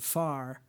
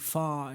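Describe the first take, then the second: First: It is said with an American accent. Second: It is said with a British accent. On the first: "instead of far" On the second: "saying fa"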